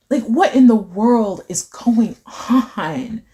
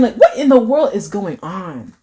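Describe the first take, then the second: First: "what in the world" pulled apart word by word; slow emphatic disbelief. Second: "what in the world" with punch on "what"; emphatic disbelief. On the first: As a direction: stretch out "going on" at half speed. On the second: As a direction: stress "what", let "on" fall. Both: Real, not acted. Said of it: "how the way I'm just emphasizing".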